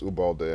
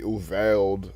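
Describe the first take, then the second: First: The second consonant is a soft B sound. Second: The second consonant is a clear V sound. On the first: The name is said the Spanish way. The speaker calls it right. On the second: The name is said the English way. The speaker calls it wrong. "Some English Americanized pronunciation"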